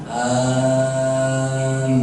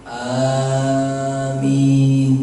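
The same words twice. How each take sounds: No difference in how they are said.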